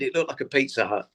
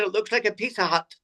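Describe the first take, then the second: First: Said in the usual way. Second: Higher-pitched imitation of a whistly Scotsman; whistly Scottish accent. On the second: Old Scottish guy directing comedians to the venue, whistly Scottish accent. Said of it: "in the whistly Scottish accent".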